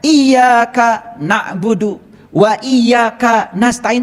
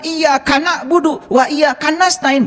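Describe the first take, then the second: First: Iyyaka and na'budu are separated by a break. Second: Iyyaka and na'budu run together without a break.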